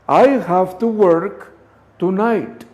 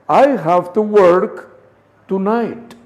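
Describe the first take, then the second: First: The words are linked together into one flow. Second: The same.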